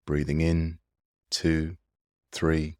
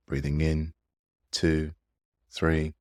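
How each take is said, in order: Both takes have the same delivery.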